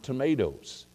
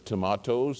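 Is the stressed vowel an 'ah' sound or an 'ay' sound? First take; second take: ay; ah. First: The stressed vowel is an 'ay' sound. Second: The stressed vowel is an open 'ah' sound. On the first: This is the American way of saying it. The speaker calls it wrong. "not tomatoes" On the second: This is the English way of saying it. The speaker calls it right. "it's tomatoes"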